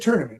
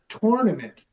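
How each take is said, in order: First: The word has its usual everyday pronunciation. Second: The word is sounded out letter for letter. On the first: "that's how you would you'd say tournament" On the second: "the real true letter for letter tournament he would call it"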